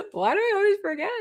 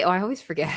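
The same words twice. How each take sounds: First: High squeak. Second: Said in the usual way. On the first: Real, not acted.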